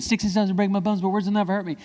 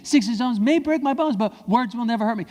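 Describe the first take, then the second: First: Said in the usual way. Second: Higher and firmer, every word meant; said like you mean it. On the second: Shown as a demonstration. Kids repeating the slogan, said with conviction. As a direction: chant it with conviction. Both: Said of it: "Say it like you mean it".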